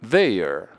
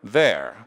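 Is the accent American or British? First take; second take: British; American. First: It is said with a British accent. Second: It is said with an American accent. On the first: "Se fosse britânico" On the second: "Se fosse americano"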